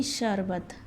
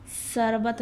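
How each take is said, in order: First: शरबत said with a clear sh, sharbat, softly; शरबत with sh, the corrected way; शरबत pronounced sharbat, sh sound clear; correct pronunciation. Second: शरबत said with a plain s, sarbat; शरबत with s for sh, as misspelt; शरबत read as sarbat, the wrong way; wrong pronunciation. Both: Shown as a demonstration. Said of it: "शरबत नहीं".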